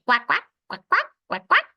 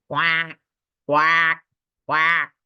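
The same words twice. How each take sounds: First: Higher, louder little-duck quacks; small duck quack. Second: Big duck quack. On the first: Reading to a child, quacking like the small brave ducks. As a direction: quack like a tiny eager duckling. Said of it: "They say". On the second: Reading to a child, quacking like the wary big ducks. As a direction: give each quack the weight of a big duck. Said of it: "The big ducks say". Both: A narrator's reading.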